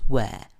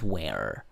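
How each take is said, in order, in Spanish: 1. Se dice con acento británico. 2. Se dice con acento americano. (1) "En inglés británico le decimos were" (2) "En inglés americano es were"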